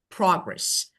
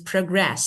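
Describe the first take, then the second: First: The stress is on the first syllable. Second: The stress is on the second syllable. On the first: It is used as a noun. "So this is noun" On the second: It is used as a verb. "but this is progress"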